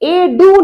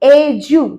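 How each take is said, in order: First: The middle consonant is a plain d sound. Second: The middle consonant is a j sound. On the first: The speaker calls it wrong. "এ ডু নয়" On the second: The speaker calls it right. "উচ্চারণ কি? এজু"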